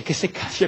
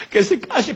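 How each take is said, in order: First: Said in the usual way. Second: Higher and louder, fed up; Abraham fed up with the cries, louder; exasperated outburst. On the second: Acted. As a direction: snap it out, losing patience. Abraham refuses to hear.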